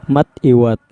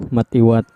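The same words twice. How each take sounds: Both takes have the same delivery.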